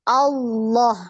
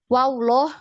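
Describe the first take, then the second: First: The word begins with a plain vowel. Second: A w-like sound is added before the word. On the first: The speaker calls it right. "Ini tidak ada waw di depannya ya" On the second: The speaker calls it wrong. "Jadi bukan wawloh"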